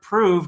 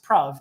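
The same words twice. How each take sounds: First: It has the modern English vowel sound. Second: It has an older English vowel sound.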